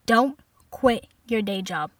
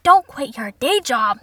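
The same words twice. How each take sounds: First: Slow, measured dismissal imitating mom; mother's deliberate put-down. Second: Loud, slow outraged echo; indignant repeat. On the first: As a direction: deliver it word by word, with pauses. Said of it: "She said". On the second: Acted. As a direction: throw the words back loudly, drawn out. Outraged repeat of mother's line.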